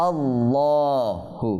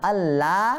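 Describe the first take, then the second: First: আল্লাহু stretched very slowly with a long final vowel, the wrong way; wrong reading. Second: আল্লাহ said short and clean with a heavy lam; correct reading. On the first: Teacher showing students the wrong reading, drawn out. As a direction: drag out আল্লাহু as the example not to follow. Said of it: "আল্লাহু হবে না". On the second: Teacher giving students the correct reading, short and firm. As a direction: say আল্লাহ crisply, the right way. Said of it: "আল্লাহ না হয়ে আল্লাহ". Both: Shown as a demonstration.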